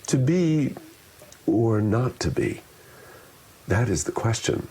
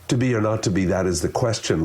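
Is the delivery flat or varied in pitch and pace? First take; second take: varied; flat. First: It is said with lively, varied pitch and pace. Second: It is said flatly with little vocal variety. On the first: The meaning is easy for the listener to follow. The speaker calls it right. "the vocal variety makes it much easier to get what I'm saying" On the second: The meaning is hard for the listener to follow. The speaker calls it wrong. "I'm not doing any of the work to make it easier for the listener"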